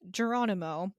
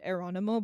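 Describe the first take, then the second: First: The name starts with a J sound. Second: The name starts with a vowel sound. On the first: "it's not a J sound, but I'm gonna say it anyway" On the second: "I want to pronounce it Eronimo"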